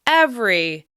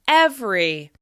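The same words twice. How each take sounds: Both takes have the same delivery.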